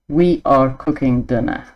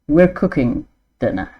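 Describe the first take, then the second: First: We are is said as two full words. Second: We are is shortened to one syllable. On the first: "the written word as it is" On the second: "how we would say it"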